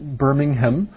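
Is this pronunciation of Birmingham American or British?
British. It is said with a British pronunciation. "in England, they might pronounce it Birmingham"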